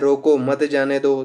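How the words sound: There is a pause right after the first word. Stop him; do not let him go. "अगर वो रोको पे रुक जाता है"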